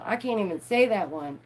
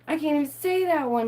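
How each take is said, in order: First: Said in the usual way. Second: Higher, exasperated repeat. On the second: Real, not acted. Stumbling over bacteria words, higher exasperated complaint. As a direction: throw up your hands.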